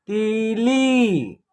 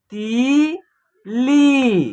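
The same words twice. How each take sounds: First: तीली joined as one slow word, softer; blended syllables. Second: तीली split into a long ती and a long ली; separate syllables. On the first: Teacher putting the word together for learners, तीली slowly blended. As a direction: run ती into ली without a break in तीली. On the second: Teacher sounding out a word for learners, तीली syllable by syllable. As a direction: say तीली very slowly with a gap in the middle. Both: Shown as a demonstration. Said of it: "तो एक साथ उच्चारण करेंगे".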